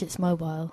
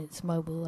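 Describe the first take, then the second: First: Mobile is said with a British pronunciation. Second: Mobile is said with an American pronunciation. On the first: "if you're English, it's mobile" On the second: "If you're American, it's mobile"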